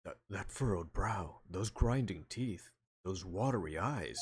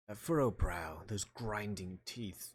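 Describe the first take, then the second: First: Slow, deliberate judge voice. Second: Lightly British courtroom voice; somewhat British. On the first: Judge listing Edgeworth's symptoms, slow judge. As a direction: spell out each symptom like a courtroom elder. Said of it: "that's the judge talking". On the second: Player mistakenly voicing Edgeworth, somewhat British. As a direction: read it with a hint of British, slowing down. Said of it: "It was somewhat British". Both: Acted.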